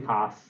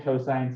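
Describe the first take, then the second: First: The word is clipped to a single syllable. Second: The word is said in full, three syllables. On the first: The speaker calls it wrong. "don't say cos" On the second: The speaker calls it right. "It's the correct way of saying it"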